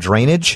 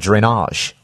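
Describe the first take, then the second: First: The word is said in a plain, unaccented way. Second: The word is said with a French accent. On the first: "It doesn't sound so exotic" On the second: "when you speak with a French accent like I can't do, you'd say something like drainage"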